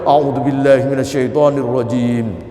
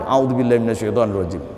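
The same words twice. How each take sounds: First: The phrase is said loudly. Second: The phrase is said quietly. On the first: The speaker calls it wrong. "dibacanya keras" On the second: The speaker calls it right. "Cukup pelan saja"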